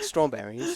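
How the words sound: A refined, elegant British accent. The speaker calls it right. "it's like more elegant"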